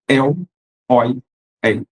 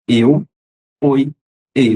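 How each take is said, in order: First: The diphthongs are said with open vowels. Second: The diphthongs are said with closed vowels.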